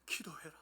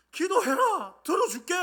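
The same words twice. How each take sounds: First: Very soft, near-whispered urging; hushed command. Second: High, loud cry of promise; shouted command. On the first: God telling the believer to pray, hushed. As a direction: say it hushed, under the breath. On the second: God promising to hear prayer, commanding shout. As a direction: shout it out as a proclamation. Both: Acted.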